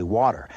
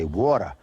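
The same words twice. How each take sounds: First: Said in the usual way. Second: "water" said the hard Brooklyn way; Brooklyn accent. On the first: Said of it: "I say water". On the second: Shown as a demonstration. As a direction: give "water" an old Brooklyn sound. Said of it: "but not in Brooklyn. You say".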